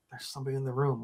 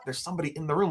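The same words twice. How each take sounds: First: Soft, low statement; hushed warning. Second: Rising question on "room"; questioning echo. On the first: [name] warns his sleepy roommate, hushed statement. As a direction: break the news under your voice. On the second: Sleepy roommate questions [name]'s warning, rising on "room". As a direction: repeat it as a query, lifting at "room". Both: Retold or imitated.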